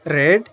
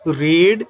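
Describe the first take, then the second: First: "read" with a short e, like "red"; past-tense pronunciation. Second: "read" with a long ee, like "reed"; present-tense pronunciation. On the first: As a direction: say "read" to rhyme with "bed". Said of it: "The past form". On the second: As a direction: say "read" to rhyme with "need". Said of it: "They are the base form or the present form". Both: Shown as a demonstration.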